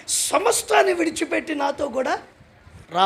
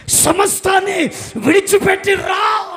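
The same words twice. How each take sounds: First: Said in the usual way. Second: విడిచిపెట్టి hit loud and slow, each word spaced out; slow emphatic shout. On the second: Shown as a demonstration. Preacher repeats God's call to the church, slow and shouting. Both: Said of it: "జాగ్రత్త వినాలి".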